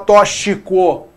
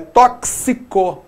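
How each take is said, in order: First: The x is sounded as a single consonant. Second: The x is sounded as two consonants, ks. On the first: The speaker calls it wrong. "eu não posso falar tóxico" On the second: The speaker calls it right. "é tóxico, beleza? Tóxico. Então, a letra X já produz mais dois sons"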